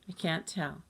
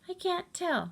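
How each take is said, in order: First: It is said in a normal voice. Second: It is said in a high voice.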